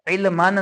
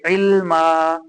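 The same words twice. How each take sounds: First: इल्मन with the final -न sounded; wrong tanween form. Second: इल्मा ending on a long आ, no न; stopping form. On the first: Teacher names the wrong reading, इल्मन with final न. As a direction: say इल्मन ending on न. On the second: Teacher gives the correct stop, इल्मा with long final आ. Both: Shown as a demonstration. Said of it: "इल्मन नहीं पढ़ेंगे".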